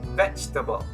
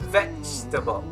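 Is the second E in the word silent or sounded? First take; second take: silent; silent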